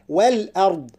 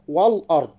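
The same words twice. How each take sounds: First: The 'l' and glottal stop are light. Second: The 'l' and glottal stop are heavy. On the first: The speaker calls it right. "الصحيح والأرض" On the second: The speaker calls it wrong. "نبهنا على ترقيق اللام وترقيق الهمزة، لا نقول والأرض"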